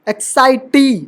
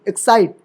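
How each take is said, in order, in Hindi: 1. इसके अंत में एक अतिरिक्त स्वर ध्वनि है। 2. यह अंतिम t ध्वनि पर खत्म होता है।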